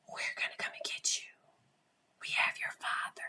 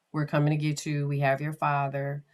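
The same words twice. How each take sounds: First: Eerie, voiceless whispered threat; dark angels' whisper. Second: Said in the usual way. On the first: Acted. Dark angels talking to these kids, whispered. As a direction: whisper it low to frighten a child. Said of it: "talking to these kids". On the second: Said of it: "Can you hear me?".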